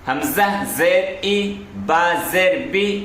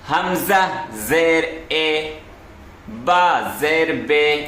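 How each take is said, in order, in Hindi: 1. ज़ेर का स्वर एक लंबी 'ee' आवाज़ है। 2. ज़ेर का स्वर एक 'ay' आवाज़ है। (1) "इस तरीके से पढ़ना ये सही है" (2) "इसी को बोला जाता है मजहूल आवाज"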